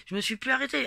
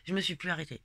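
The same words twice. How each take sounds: First: "Je me suis plus arrêtée" said higher and louder, hitting "arrêtée"; insistent emphatic repetition; emphatic repeat. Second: Said in the usual way. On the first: Real, not acted.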